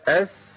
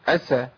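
First: The s sound is held out with flowing breath. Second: The s sound is cut short and rushed. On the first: The speaker calls it right. "لازم ابين رخاوه السين الساكنه" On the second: The speaker calls it wrong. "ما اقولش اسا، ايه اسا دي؟ ما تنفعش"

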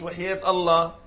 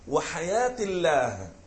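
First: The vowel before the final h is short. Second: The vowel before the final h is long. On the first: The speaker calls it wrong. "مش وحياة الله" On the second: The speaker calls it right. "تقول والله وحياة الله"

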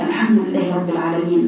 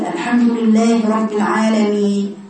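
First: The final n sound is clearly pronounced. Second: The final n sound is swallowed and unheard. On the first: The speaker calls it right. "لازم تبان تبين الحروف الأخيرة" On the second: The speaker calls it wrong. "فين الحرف الأخير بتاكل كل الحروف الأخيرة"

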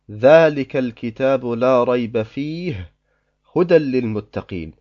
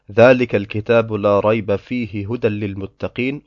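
First: There is a pause after the word fihi. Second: The verse runs on with no pause. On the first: "oder man liest" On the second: "ohne stehen zu bleiben"

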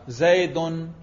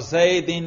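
First: The word ends in -un. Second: The word ends in -in. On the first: The noun is in the nominative case. "رفع" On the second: The noun is in the genitive case. "جر"

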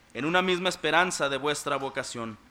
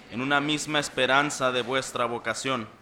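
The two takes are said the same way.

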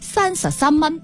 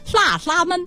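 First: It is spoken with a standard Cantonese pronunciation. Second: It is spoken with a Guangxi Baihua pronunciation. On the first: "粤语是33 蚊" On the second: "白话是33 蚊"

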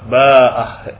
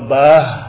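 First: It has a long vowel, glottal stop and final h. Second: It has a final h but no glottal stop. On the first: "bil maddi wal ha. Dengan mad dan dengan ha" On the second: "dengan ha tanpa mad. Tanpa mad artinya tanpa hamzah"

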